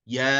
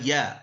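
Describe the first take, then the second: First: It begins with a y sound. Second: The same.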